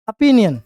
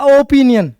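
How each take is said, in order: First: ओपिनियन said with an open aa, apinion; teacher giving the correct ओपिनियन as apinion; right pronunciation. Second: ओपिनियन said slowly with a rounded o, opinion; teacher slowly mocking the wrong ओपिनियन; wrong pronunciation. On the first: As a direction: open the first vowel of ओपिनियन to aa. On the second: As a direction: stretch out ओपिनियन with a long o as the wrong way. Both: Shown as a demonstration. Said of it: "not ओपिनियन".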